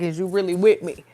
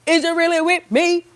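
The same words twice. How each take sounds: First: Said in the usual way. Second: High, louder mock-probing voice; playful testing question. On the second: Voicing God testing believers, playfully insistent high question. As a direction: press the question, pitched way up. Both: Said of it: "testing us to see".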